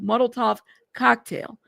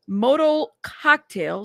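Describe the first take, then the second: First: The first word is said as three syllables, Molotov. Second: The first word is said as two syllables, modal. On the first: The speaker calls it right. "I should know how to say this" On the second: The speaker calls it wrong. "how the fuck do you say this?"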